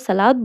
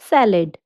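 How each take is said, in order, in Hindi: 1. इसे हिंदी तरीके से बोला गया है, दूसरे स्वर को लंबा करके। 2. इसे अंग्रेज़ी तरीके से बोला गया है, दूसरे स्वर को छोटा करके। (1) "जैसे हम हिंदी में सलाद बोलते हैं" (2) "इंग्लिश में इट इज सैलेड"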